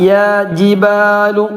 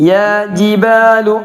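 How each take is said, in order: No difference in how they are said.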